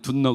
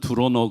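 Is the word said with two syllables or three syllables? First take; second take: two; three. First: The word is contracted into two syllables. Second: The word is said in three syllables. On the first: This is the form the children could not understand. The speaker calls it wrong. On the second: This is the local form the children understand. The speaker calls it right.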